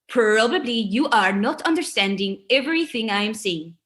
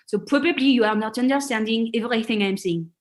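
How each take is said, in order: First: It has an American accent with English R sounds. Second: It has a French accent with French R sounds. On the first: This is after accent modification. The speaker calls it right. "after that accent modification" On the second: This is before accent modification. The speaker calls it wrong. "I will put on a role as a French speaker"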